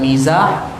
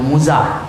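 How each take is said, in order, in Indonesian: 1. Vokal pertama adalah bunyi 'i'. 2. Vokal pertama adalah bunyi 'u'. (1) "dibaca dengan mizah" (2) "boleh juga dibaca dengan muzah"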